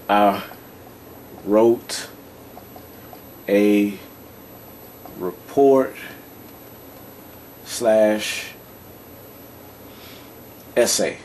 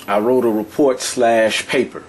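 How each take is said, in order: First: One word at a time, long pauses; slow dictation. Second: Said in the usual way. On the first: Shown as a demonstration. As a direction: dictate it at writing speed. Repeats example while writing it out.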